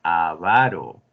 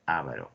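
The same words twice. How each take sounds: First: Slow "avaro" as a-VA-ro; stress on second syllable. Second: Softer "avaro" as Á-va-ro; wrong first-syllable stress. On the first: Teacher has the class pronounce it, "avaro" as slow a-VA-ro. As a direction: draw out VA in "avaro". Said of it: "aquí en la segunda". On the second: Teacher dismisses the wrong form, "avaro" softly as Á-va-ro. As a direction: put the weight on A in "avaro", quietly. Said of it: "no es avaro". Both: Shown as a demonstration.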